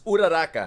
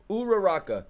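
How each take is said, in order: First: It is said with a Japanese accent. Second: It is said with an American accent. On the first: The speaker calls it right. "It's Uraraka" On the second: The speaker calls it wrong. "That's the American way to say it"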